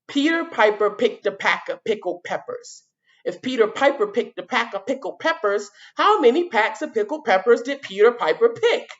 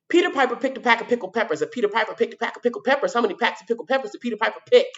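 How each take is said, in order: First: It is said at a slower pace. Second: It is said at a fast pace.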